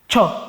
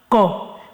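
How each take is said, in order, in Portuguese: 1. A sílaba começa com um som de 'ch'. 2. A sílaba começa com um som de 'k'. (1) "E como é que se lê? Cho" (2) "E não co"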